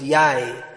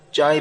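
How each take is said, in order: First: The word begins with a Y sound. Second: The word begins with a J sound. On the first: "Jai becomes Yai" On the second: "They don't say J"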